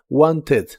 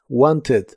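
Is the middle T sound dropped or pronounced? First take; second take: pronounced; pronounced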